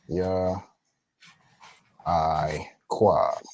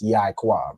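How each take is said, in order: First: The two parts are said as separate pieces. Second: The two parts run together into one word. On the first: The speaker calls it right. "but they would actually be separate" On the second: The speaker calls it wrong. "the Ya and the I are actually connected"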